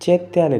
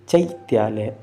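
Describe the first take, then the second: First: The first vowel is a plain 'e' sound. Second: The first vowel is the diphthong 'ai'. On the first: The speaker calls it wrong. "चैत्यालय नहीं" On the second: The speaker calls it right. "आई की मात्रा है तो चै बोलना है"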